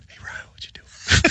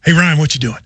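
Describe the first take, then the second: First: Imitating a man who echoes himself in a whisper; whispered repeat. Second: Said in the usual way. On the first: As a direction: whisper it like a secret echo. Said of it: "it in a whisper". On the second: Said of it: "would say something and then".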